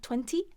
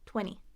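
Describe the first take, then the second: First: The second T sound is clearly pronounced. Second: The second T sound is dropped entirely. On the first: The speaker calls it wrong. "It's not twenty" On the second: The speaker calls it right. "we skip that last T"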